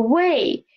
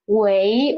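First: 喂 slow, falling at the end; 喂 without questioning rise. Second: 喂 slow, rising like a question; second-tone 喂. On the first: Teacher contrasting greetings for listening test, 喂 in falling tone. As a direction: let 喂 drop like a statement. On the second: Teacher contrasting greetings for listening test, 喂 in rising tone. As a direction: lift the end of 喂. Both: Shown as a demonstration. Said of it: "hear this 喂 or 喂".

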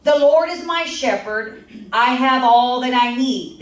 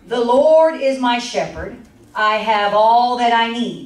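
First: Scripture reading. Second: Slow, solemn, louder scripture read. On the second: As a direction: read it out slowly and reverently. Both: Acted.

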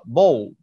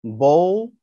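First: "ball" with the double l barely pronounced; soft final l. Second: "ball" with a rounded o sound, not oo; modelled vowel. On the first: Teacher shows the double letters stay light, relaxed model. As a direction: swallow the l sounds in "ball". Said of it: "حرفين مش بنتك عليهم قوي واحنا بننطق". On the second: Teacher shows pupils the vowel in "ball", careful model. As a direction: stretch the vowel in "ball" gently. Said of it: "في حرف بيتنطق او لكن هو مش او". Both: Shown as a demonstration.

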